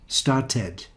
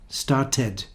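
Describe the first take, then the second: No difference in how they are said.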